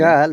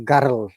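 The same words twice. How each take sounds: First: The R is not rolled. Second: The R is strongly rolled. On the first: "we say" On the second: "they have a rolling R. So they say"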